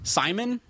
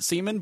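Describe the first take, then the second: First: The first vowel sounds like 'eye'. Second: The first vowel sounds like 'ee'. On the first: The speaker calls it right. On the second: The speaker calls it wrong.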